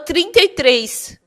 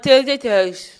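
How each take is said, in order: First: The words are articulated clearly and precisely. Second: The words are articulated poorly, with unclear diction. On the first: The speaker calls it right. "Eu tinha que falar trinta e três" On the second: The speaker calls it wrong. "E eu falava trinta e três"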